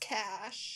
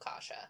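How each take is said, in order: First: The name is said with one syllable. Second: The name is said with two syllables. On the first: "but that says cash" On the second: "I also said, oh, Kasha"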